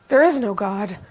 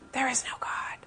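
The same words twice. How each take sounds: First: It is said in a louder voice. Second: It is said in a whisper.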